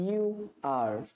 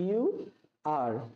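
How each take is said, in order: The two takes are said the same way.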